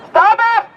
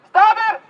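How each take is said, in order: First: High, sharper shouted repeat; yelling. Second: Higher pitched shouted demand; yelling. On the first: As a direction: yell it again, higher. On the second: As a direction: yell it up at them. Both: Real, not acted. Protester yelling up.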